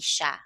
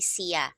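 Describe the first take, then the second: First: The word is said short and clipped together. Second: The word is said long, in two full syllables. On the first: The speaker calls it right. "we say siya, okay? It's it's always short" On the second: The speaker calls it wrong. "we don't say siya"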